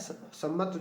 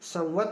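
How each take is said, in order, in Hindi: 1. बीच की ध्वनि 'm' की दोहरी ध्वनि है। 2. बीच में 'm' के बाद 'v' आता है। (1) "वैसे बोलने में सम्मत कहा जाता है" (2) "ये संवत है"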